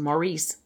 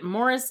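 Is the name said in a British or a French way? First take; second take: French; British. First: The name is said the French way. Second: The name is said the British way. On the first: "probably, because he's French-Canadian" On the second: "that would be the British pronunciation"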